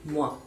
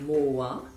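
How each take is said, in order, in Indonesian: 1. Vokalnya meluncur menyatu dalam satu suku kata. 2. Vokalnya dipisah menjadi dua suku kata. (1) "tapi dia langsung aja moi" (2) "bukan moi ya"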